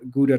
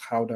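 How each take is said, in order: First: Gouda is pronounced the American way. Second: Gouda is pronounced the Dutch way. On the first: "Gouda cheese, you call it in the U S" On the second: "I think they pronounce it Gouda over there"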